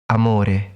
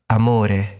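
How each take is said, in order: The two takes are said the same way.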